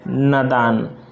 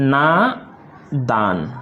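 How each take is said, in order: First: The first vowel is short. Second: The first vowel is long. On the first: The speaker calls it wrong. "आपने गलत बोला" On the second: The speaker calls it right. "नादान ये शुद्धतम रूप है"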